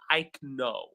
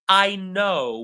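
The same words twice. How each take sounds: First: The word know starts with a K sound. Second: The word know starts with an N sound. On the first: The speaker calls it wrong. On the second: The speaker calls it right.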